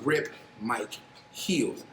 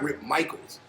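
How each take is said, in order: First: The surname sounds like two words, Mike Heels. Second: The surname sounds like the common name Michaels. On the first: The speaker calls it right. "actually Rip Mike Heels" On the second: The speaker calls it wrong. "It's not Rip Michaels"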